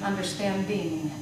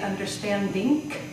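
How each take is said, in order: First: The ending has a voiced, soft ng sound. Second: The ending has an unvoiced, k-like final sound. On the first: The speaker calls it right. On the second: The speaker calls it wrong.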